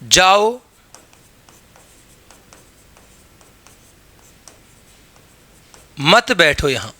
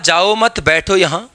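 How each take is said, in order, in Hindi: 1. विराम 'jao' शब्द के बाद आता है। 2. विराम 'mat' शब्द के बाद आता है। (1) "जाने के लिए कहा जा रहा है, बैठने के लिए नहीं" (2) "जाने के लिए नहीं कहा, बैठने के लिए कहा"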